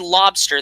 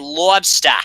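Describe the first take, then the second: First: The R sound in the word is pronounced. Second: The R sound in the word is dropped. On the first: "they don't say lobster" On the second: "they don't pronounce R's. ... they say lobster"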